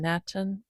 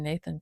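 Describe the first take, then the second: First: The middle consonant is a plain T sound. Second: The middle consonant is a TH sound. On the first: "It's spelled N A T A N, Natan" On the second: "I think I'll just say Nathan"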